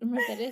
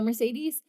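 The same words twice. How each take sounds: First: The name is said with a Spanish accent. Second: The name is said with an American accent. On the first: "I feel very silly going Mercedes" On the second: "I'm gonna pronounce it the American way"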